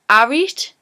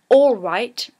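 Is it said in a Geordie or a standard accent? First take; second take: Geordie; standard. First: It is said in a Geordie accent. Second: It is said in a standard accent.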